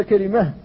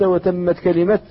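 First: كلمة ends on a breathy h, kelimah; stopping on h. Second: كلمة ends on a clear t sound, kelimat; stopping on t. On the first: Teacher shows students the wrong pause on h. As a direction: stop on كلمة with a final h. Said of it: "بالهاء". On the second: Teacher shows students the correct pause on t. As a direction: stop on كلمة with a final t, rising. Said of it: "قرأتها بالإفراد فقلت". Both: Shown as a demonstration.

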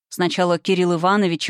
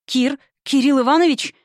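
First: Said in the usual way. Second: Calling Кирилл Иванович higher in fear; frightened cry. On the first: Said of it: "испуганно крикнула я". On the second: Acted. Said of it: "испуганно крикнула я в темноту".

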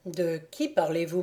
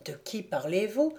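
First: Said in the usual way. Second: Understated unease, rising at the end; worried question. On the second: A narrator's reading. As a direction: ask with mild concern, lifting the last word. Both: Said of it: "répéta Conrad inquiet".

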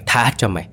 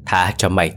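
First: Pitched higher, scornful echo; higher mocking yell. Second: Mild mocking repeat of his plea; mocking yell. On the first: Old man mocks the sorcerer's plea, higher scornful echo. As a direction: sneer the plea back, rising. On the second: Old man mocks the sorcerer's plea, mild mock yell. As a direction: throw his words back at him. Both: A narrator's reading. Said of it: "thét vào mặt lão thầy Tùng".

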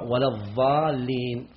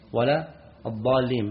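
First: "الضالين" with a dha sound, adh-dhaalleen; "ولا الضالين" read with ظ in place of ض; substituted dad. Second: "الضالين" with a true dad, a heavy d-like stop; "ولا الضالين" read with a proper ض; correct dad. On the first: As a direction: say the ض of "الضالين" as emphatic ظ. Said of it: "كإبدال ضاد". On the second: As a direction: say the ض of "الضالين" as emphatic d, ad-daalleen. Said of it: "بالضاد". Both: Shown as a demonstration.

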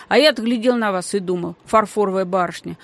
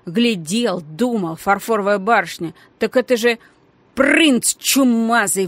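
First: Said in the usual way. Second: Mimicking his words, then blurted loud; mocking blurt. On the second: A narrator's reading. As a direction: throw his words back at him. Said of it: "выпалила Геля".

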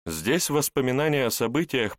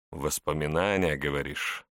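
First: Said in the usual way. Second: Wry smirking question. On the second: Acted. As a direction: let a smirk sit on the words. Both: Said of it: "усмехнулся тот".

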